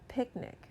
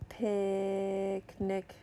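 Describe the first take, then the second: First: The word is said quickly as one unit. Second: The word is stretched out slowly, sound by sound. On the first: "Say it fast" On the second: "I'm going to sound out a word"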